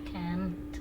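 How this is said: It has an American accent with a stressed t. "Kalau Amerika can't, sama-sama tapi T-nya ditekan"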